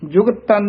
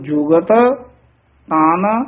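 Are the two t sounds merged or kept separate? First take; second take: merged; separate. First: The two t sounds run together as one. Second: The two t sounds are pronounced separately. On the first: The speaker calls it wrong. "ਜੁਗਤ ਤਨ ਨਹੀਂ ਕਹਿਣਾ" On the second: The speaker calls it right. "ਇਸ ਤਰ੍ਹਾਂ ਬੋਲਣਾ"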